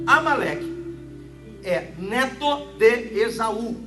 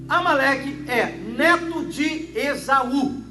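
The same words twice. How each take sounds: First: It is said slowly, with pauses. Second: It is said at normal speed.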